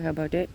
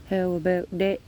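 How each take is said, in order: First: Said in the usual way. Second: Dog praise voice. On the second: Real, not acted. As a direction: lift the whole question up for the dog. Asking the dog again.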